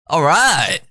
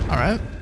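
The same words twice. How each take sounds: First: It sounds eager and enthusiastic. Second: It sounds hesitant and unsure.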